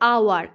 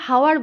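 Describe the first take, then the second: First: The word begins directly with a vowel sound. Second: The word begins with an audible h sound. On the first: The speaker calls it right. "বলছি কি আওয়ার" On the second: The speaker calls it wrong. "H দিয়ে শুরু হচ্ছে বলে হাওয়ার বলছি না"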